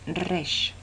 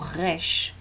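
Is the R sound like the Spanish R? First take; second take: yes; no. First: The r is like a Spanish r. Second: The r is not like a Spanish r. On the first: This is the traditional Torah pronunciation. The speaker calls it right. "la manera correcta de la Torá de pronunciarlo es resh" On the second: Some speakers say it this way because of their origin. The speaker calls it wrong. "a veces se pronuncia como resh"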